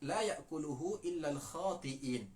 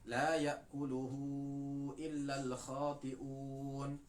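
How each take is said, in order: First: The last word ends with the vowel 'i'. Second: The last word ends with the vowel 'u'. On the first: The speaker calls it wrong. "membacanya al-khati'in dengan dengan ya bukan dengan waw" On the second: The speaker calls it right. "Yang benar adalah"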